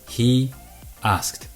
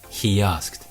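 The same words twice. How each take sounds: First: No extra sound comes between the words. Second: A y sound comes between the words.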